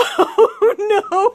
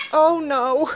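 First: Laughing dismay. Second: Said in the usual way. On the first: Real, not acted. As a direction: cry it out as laughter takes over. Repeats it, now cracking up.

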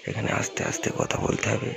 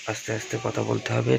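First: Whisper. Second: Said in the usual way. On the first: Real, not acted. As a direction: breathe it out without voice.

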